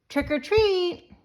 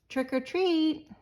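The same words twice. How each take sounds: First: It is said a little louder. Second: It is said very softly.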